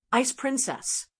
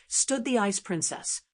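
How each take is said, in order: First: Eye-rolling scorn. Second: Said in the usual way. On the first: A narrator's reading. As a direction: repeat the title with dry disdain, pitched up. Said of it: "Even her stage name made me roll my eyes".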